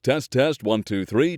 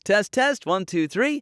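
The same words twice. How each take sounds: First: The voice is a low baritone. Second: The voice is a tenor. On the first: "Baritone voices" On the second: "Tenor voices"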